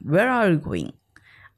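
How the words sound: American accent, with the tongue rolled on r. "American जो होते हैं वो थोड़ा रोल करते हैं अपने टंग को"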